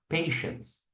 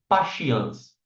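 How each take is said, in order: First: The word is said with normal English pronunciation. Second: The word is read out as spelled, not English. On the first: The word is recognized as the English word for patience. The speaker calls it right. "em inglês" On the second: The person did not know how to read her own tattoo. The speaker calls it wrong. "Ela falou desse jeito"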